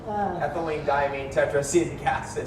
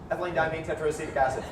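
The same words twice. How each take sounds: First: The phrase is said at a normal pace. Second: The phrase is said very fast.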